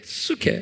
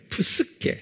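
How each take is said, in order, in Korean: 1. 처음 p 소리는 묵음이에요. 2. 처음 p 소리는 발음돼요.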